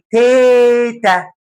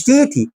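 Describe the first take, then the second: First: "تيتا" with a long, high "té" then "ta"; té as in teta. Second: "تيتي" as tee-tee, two ee vowels; wrong titi. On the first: Teacher giving grandma as the model, drawn-out high téta. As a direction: stretch the first syllable of "تيتا", higher and slower. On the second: Teacher showing what it is not, ee-vowel titi. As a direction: say "تيتي" quickly with ee in both syllables. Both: Shown as a demonstration. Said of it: "مش تيتي".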